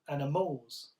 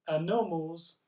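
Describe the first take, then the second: First: The stress is on the final syllable. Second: The stress is on the second syllable. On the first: "if it's on the final syllable" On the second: "If it's on the second syllable"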